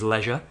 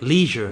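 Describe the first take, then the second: First: It is said in a non-American accent. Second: It is said in an American accent. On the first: "The word is" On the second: "but they say"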